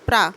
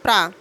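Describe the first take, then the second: First: The two consonants are said as separate sounds. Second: The two consonants are said as one cluster. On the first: The speaker calls it wrong. "होता नहीं है" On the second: The speaker calls it right. "एक साथ बोलते हैं"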